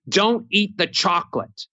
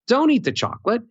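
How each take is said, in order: First: It is flat on one note and sounds angry. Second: It moves up and down and sounds friendly. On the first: The speaker is angry. The speaker calls it wrong. "sounds angry, no melody, monotone, one note" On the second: The speaker is not angry. The speaker calls it right. "I'm not mad because if I have melody"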